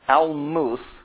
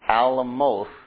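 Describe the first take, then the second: First: The word does not sound like Alamo plus th. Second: The word sounds like Alamo with th added. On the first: This is the word in the current text. "Almuth is what we've got in front of us" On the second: This is the word at the start of Psalm 46. "Alamo with TH at the end of it"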